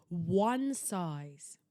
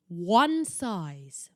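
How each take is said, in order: First: Said in the usual way. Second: "One size" read loud, with "One" hit hard; reading the tag aloud. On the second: Retold or imitated. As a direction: announce "One" like a printed label. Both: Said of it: "it says".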